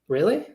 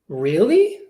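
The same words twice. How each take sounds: First: The voice sounds uninterested. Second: The voice sounds interested.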